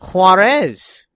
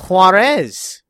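First: The name is said with a Spanish accent. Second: The same.

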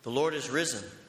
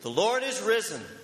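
First: It is said a little louder. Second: It is said very loudly.

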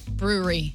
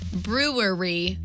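First: Some sounds in the word are skipped over. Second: Every syllable of the word is fully pronounced. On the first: "but I think we pronounce it brewery" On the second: "Here's another one where you just skim over a few letters"

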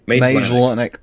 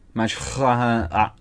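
First: The middle consonant is a plain L sound. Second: The middle consonant sounds more like an F.

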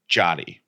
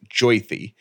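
First: The first syllable sounds like jot. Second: The first syllable sounds like joy. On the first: The speaker calls it wrong. "it looks like Jotty, rhyming with potty" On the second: The speaker calls it right. "It's pronounced Joythy"

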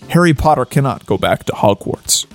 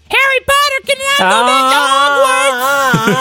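First: It is read in the reader's plain voice. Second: It is read in a put-on squeaky character voice.

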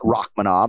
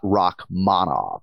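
First: The stress falls off the second syllable. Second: The stress falls on the second syllable. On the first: The speaker calls it wrong. "So not Rakhmonov" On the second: The speaker calls it right. "we're going second syllable here"

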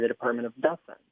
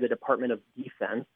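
First: The stress in 'defense' is on the second syllable. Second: The stress in 'defense' is on the first syllable. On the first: The speaker calls it right. "You hear them say" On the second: The speaker calls it wrong. "you never hear anyone say"

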